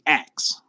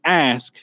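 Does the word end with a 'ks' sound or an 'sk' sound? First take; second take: ks; sk. First: The word ends with a k then s sound. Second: The word ends with an s then k sound. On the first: "you say ax" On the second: "instead of saying ask"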